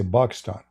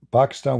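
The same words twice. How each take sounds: First: Pakistan said as "Bakistan", b instead of p; Arabic pronunciation. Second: Said in the usual way. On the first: Shown as a demonstration. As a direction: swap the P for a B: Bakistan. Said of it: "we say". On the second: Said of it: "we say Pakistan".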